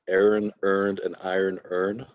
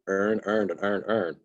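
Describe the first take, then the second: First: It is said in a plain accent. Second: It is said in a Baltimore accent. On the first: "the phrase" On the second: "it just sounds like"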